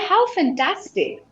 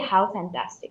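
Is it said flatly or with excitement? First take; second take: excitement; flatly. First: It is said with excited, pleased emotion. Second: It is said flatly, without emotion.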